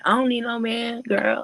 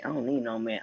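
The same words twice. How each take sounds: First: Much higher and louder, mock sassy girl; sassy girl imitation. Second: Said in the usual way. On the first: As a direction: hype up the "I don't need no man" line like a girl egging her friend on. Girls echoing each other's words.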